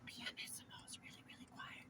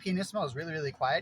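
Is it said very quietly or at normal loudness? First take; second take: very quietly; normal loudness. First: It is said almost inaudibly quietly. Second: It is said at normal speaking loudness.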